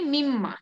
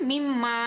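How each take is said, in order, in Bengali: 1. শেষ স্বরধ্বনিটি হ্রস্ব রাখা হয়। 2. শেষ স্বরধ্বনিটি টেনে দীর্ঘ করা হয়। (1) "কোনো টান দেওয়া যাবে না" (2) "উপরেরটাতে কিন্তু আছে"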